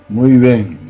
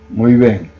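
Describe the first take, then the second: No difference in how they are said.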